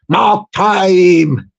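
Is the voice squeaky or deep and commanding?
deep commanding. It is said in a commanding sergeant major voice.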